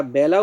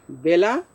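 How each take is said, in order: First: বেলা with an open ae, byala; open-vowel pronunciation. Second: বেলা with a close e, bela; e-vowel pronunciation. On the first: Teacher shows the time sense, open ae. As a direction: widen the e of বেলা to ae. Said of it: "এর মতো". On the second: Teacher shows the riverbank sense, close e. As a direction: say বেলা with a pure e. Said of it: "একারই উচ্চারণ করব আমরা". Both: Shown as a demonstration.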